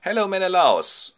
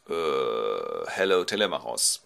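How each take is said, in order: First: High, loud lad's hello; boyish greeting. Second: Low hesitant 'uh', then plain greeting; king's reply. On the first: Telemachos arrives at the king's house, high boyish greeting. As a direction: greet the king in a high boy's voice. Son greets the king, acted. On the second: Menelaus greets the visiting son, lightly voiced low hesitation. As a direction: answer with a low, hesitant start. King answers the boy, acted. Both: Acted.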